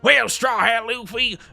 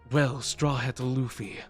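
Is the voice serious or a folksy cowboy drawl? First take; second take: cowboy drawl; serious. First: It is said in a folksy cowboy drawl. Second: It is said in a serious villain voice.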